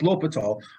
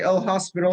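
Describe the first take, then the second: First: The name is said without an s sound. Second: The name is said with an s sound. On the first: The speaker calls it right. "It's L'Hopital" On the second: The speaker calls it wrong. "If you say L hospital, your next professor will really give you the eye"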